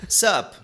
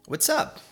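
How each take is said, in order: First: Only the short single syllable is said. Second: Both words are said in full. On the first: "Que viram sup" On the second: "O what's up?"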